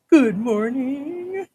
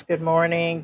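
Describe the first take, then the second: First: High, slow drawn-out good morning; sing-song greeting. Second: Said in the usual way. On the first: Shown as a demonstration. Sung-out greeting. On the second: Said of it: "greeting viewer twice".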